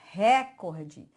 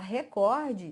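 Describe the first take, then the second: First: The stress is on the first syllable. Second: The stress is on the second syllable. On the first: This is the everyday colloquial form. "coloquial. Todo mundo fala" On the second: This is the standard normative form. "todo mundo acha que você está falando errado. Mas você sabia que a palavra é paroxítona?"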